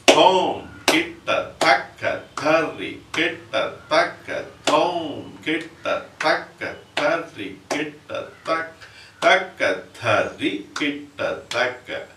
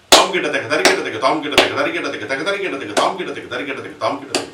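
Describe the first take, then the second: First: Thom kitataka chanted slow and spread out; slow first speed. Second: Tom kita teka rattled off quick and loud; fast third speed. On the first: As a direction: stretch each Thom kitataka across the beats. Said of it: "How do we do in the first place?". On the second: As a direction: pack the whole phrase into four beats. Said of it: "you have to tell the entire phrase". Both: Shown as a demonstration.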